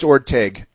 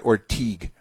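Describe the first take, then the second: First: Orteg with a short e in the second syllable; Orteg, ending in "teg"; pronounced Orteg. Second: Ortigue with a long ee in the second syllable; Ortigue, rhyming with "league"; mispronounced Ortigue. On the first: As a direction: say Orteg, the ending like "egg" with a t before the vowel. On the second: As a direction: say Ortigue, ending like "teeg". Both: Shown as a demonstration. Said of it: "not Ortigue".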